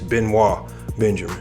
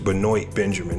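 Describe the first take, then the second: First: The name is pronounced with French sounds. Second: The name is pronounced with English sounds. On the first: The speaker calls it right. "this guy's from France" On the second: The speaker calls it wrong. "pronounce this, this guy's name wrong"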